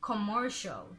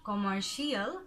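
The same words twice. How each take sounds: First: The ending is one short 'shul' syllable. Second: The ending is two syllables, like 'shee-al'. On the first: The speaker calls it right. "it's commercial" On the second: The speaker calls it wrong. "This is not commercial"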